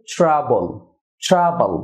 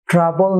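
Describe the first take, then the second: First: ট্রাবল as "chra-bol" with a dark final l; correct pronunciation. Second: ট্রাবল with a hard t-r and full "bol"; wrong pronunciation. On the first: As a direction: make tr "chr" in ট্রাবল. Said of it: "চড়া বা সিএইচআর". (ট্রাবল-এর সঠিক উচ্চারণ, "চ্রাবল") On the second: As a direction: keep a plain "tr" in ট্রাবল. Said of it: "না হয়ে হবে". (ট্রাবল-এর ভুল উচ্চারণ, স্পষ্ট "ট্র") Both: Shown as a demonstration.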